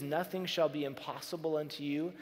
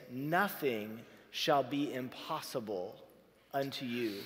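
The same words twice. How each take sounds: First: Said in the usual way. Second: Slow scripture quote. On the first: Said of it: "as we think about this phrase". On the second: Shown as a demonstration. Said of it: "there's this little phrase".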